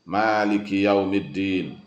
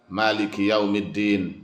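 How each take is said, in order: First: The vowel after the m is long. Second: The vowel after the m is short. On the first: "dibacanya panjang" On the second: "ada lagi yang dibaca pendek"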